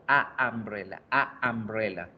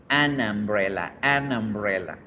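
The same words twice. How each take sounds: First: A umbrella with a stop between "a" and "umbrella"; halting wrong a umbrella. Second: An umbrella with the n running straight into the vowel, no break; linked, fluid an umbrella. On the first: Teacher showing the class the wrong halting a umbrella with a break before the vowel. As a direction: pause on "a" before "umbrella" to show the obstacle. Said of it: "Tendría que parar un momento".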